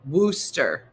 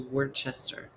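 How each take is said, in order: First: The name is said short, dropping several letters. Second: The name is said sounding out more letters. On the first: The speaker calls it right. "You took all the letters out" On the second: The speaker calls it wrong. "I'm coming to Worcester"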